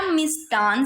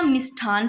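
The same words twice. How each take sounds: First: मिष्टान with a hard unbreathed t; मिष्टान as mish-taan, offered as a choice; unaspirated t. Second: मिष्ठान with a puff of air on the t; मिष्ठान as mish-thaan, offered as a choice; aspirated th. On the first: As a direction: say मिष्टान with no puff after t. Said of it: "क्या मिष्टान सही है". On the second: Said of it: "क्या मिष्ठान सही है". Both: Shown as a demonstration.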